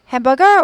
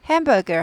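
First: The pitch rises at the end of the word. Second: The pitch falls at the end of the word. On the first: The speaker calls it wrong. "hamburger 올리는 게 아니라" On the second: The speaker calls it right. "hamburger 하고 끝이 내려져"

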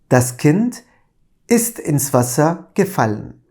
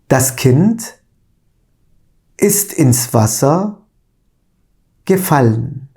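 First: The sentence is read at a normal pace. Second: The sentence is read at a slow pace.

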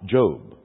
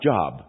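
First: The vowel is long, as in 'robe'. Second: The vowel is short, as in 'jog'. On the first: It names the biblical figure and book. The speaker calls it right. "It's spelled J-O-B, but it's Job" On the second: It refers to work or employment. The speaker calls it wrong. "Not Job"

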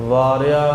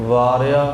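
The two takes are said the same way.

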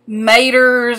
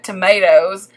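First: It is shortened the Southern way, without the O. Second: It is said in full, with the final O.

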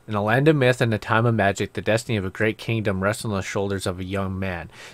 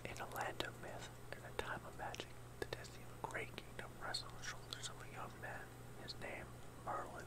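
First: It is spoken in a normal voice. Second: It is spoken in a whisper.

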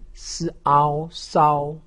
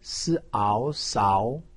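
First: The pitch stays high and level. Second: The pitch rises from middle to high. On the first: "一声" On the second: "二声"

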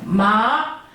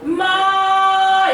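First: The pitch climbs from middle to high. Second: The pitch stays high and level throughout. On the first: "이성은 여기 가슴께부터 이렇게 올라가잖아요" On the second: "일성은 반드시 마 이렇게 하셔야지 돼요"

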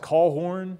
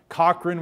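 First: The name is said as Callhorn. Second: The name is said as Cochran.

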